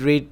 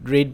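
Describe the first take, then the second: Both takes have the same delivery.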